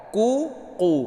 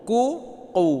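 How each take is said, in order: The two takes are said the same way.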